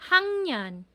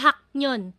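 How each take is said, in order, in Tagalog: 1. Ang tunog na ng ay nauuna sa n. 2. Ang tunog na k ay nauuna sa n. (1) "Yan po yung hangyan" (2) "Hindi siya haknyon"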